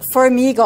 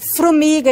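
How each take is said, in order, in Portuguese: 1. O R vem depois da primeira vogal. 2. O R vem logo depois da primeira consoante. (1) "em vez de" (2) "Observem que é uma troca"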